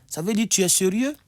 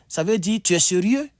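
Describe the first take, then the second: The two takes are said the same way.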